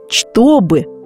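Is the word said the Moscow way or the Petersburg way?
Petersburg. Every sound is said as it is written. The speaker is a native of Saint Petersburg. "от коренных питерцев"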